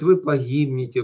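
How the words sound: It is said in a soft, gentle little voice. "вот таким вот голосочком"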